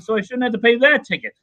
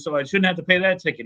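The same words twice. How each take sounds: First: Much higher and louder, mock outraged trucker; angrier retold protest. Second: Higher, mock indignant trucker; retold indignant protest. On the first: Trucker protesting to the judge, rising mock outrage. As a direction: push the indignation up a notch. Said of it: "he's all mad about it". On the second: Trucker pleading with the judge, mildly indignant. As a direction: imitate a trucker complaining to the judge. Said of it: "And he was all mad".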